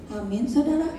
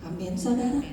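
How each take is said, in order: First: A stronger call of "Amin, saudara"; "Amin, saudara" called out with more force; louder amen. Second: Said in the usual way. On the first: Shown as a demonstration. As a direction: push the congregation to say "Amin" louder. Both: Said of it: "Yang keras".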